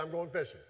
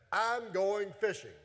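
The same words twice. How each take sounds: First: Said in the usual way. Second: Drawn-out, slightly raised delivery; deliberate scripture quote, stretched out; slow declaration. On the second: Acted. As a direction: announce it slowly, word by word. Peter's line announced, then repeated casually.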